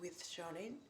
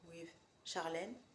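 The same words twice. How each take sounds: First: It is said with an English accent. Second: It is said with a French accent. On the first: "en anglais" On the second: "en français"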